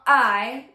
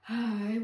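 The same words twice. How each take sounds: First: The vowel starts with a hard glottal catch. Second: The vowel starts with audible breath first. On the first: "which is glottal attack" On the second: "which is breathy attack"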